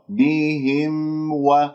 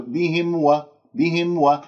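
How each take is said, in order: First: Slow بهم و with the m fully sounded; clear meem before waw. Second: Quick بهم و with the m made only by lips; meem without nasal resonance. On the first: Teacher warns meem may vanish before waw, slow distinct recitation. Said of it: "ميم مظهرة". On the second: Teacher shows the faulty meem, hurried lip-only m. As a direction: swallow the nose part of m before و. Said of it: "أتيت بالمخرج الشفوي ولم تأتي بالمخرج الخيشومي". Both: Shown as a demonstration.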